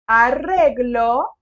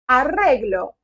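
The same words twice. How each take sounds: First: The word is said slowly. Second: The word is said quickly. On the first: "Vamos de novo" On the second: "eu falei um pouquinho rápido"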